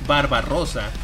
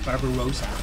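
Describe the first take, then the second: First: It is said with a Spanish accent. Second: It is said with an American accent. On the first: "if I were to say it in Spanish, I would say" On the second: "the slightly Americanish pronunciation"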